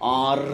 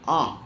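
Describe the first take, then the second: First: The r is clearly sounded after the vowel. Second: The r is dropped, leaving a plain vowel. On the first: "they will pronounce it as ஆர்" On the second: "ஒரு vowel மாதிரி தான் இருக்கும்"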